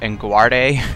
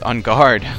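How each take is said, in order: First: The name is said like a Spanish word. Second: The name is said like English 'on guard'. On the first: The speaker calls it wrong. "like if it's a, like a Spanish name or something like that" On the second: The speaker calls it right. "That's how you pronounce it"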